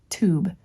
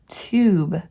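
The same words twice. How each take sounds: First: The vowel is said as a plain 'oo'. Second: The vowel is said as 'yoo' with a glide. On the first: The speaker calls it wrong. "not tube" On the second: The speaker calls it right. "Care must be taken not to pronounce long U like double O"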